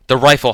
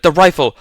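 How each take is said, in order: First: Raised first call for the rifle; shouted call. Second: "The rifle!" yelled higher and louder; full shout. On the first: Holloway calling to Leo for the rifle, raised voice. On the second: Holloway yelling to Leo for the rifle, full shout. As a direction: bark "The rifle!" with everything. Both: A narrator's reading. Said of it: "Holloway shouted".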